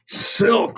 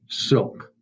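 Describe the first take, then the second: First: The word is said with full force, almost shouted. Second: The word is said at a plain, normal level. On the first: "with all the conviction you can muster" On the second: "Say silk"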